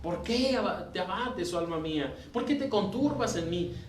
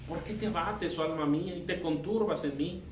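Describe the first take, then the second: First: It is said almost as a triumphant shout. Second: It is said as an assertive reproach.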